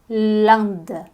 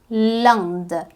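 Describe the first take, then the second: No difference in how they are said.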